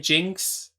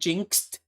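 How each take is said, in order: First: The word ends with an x sound. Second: The word ends with a d sound. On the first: "if you just say jinx with an with an X" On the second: "technically jinxed with a D sound at the end"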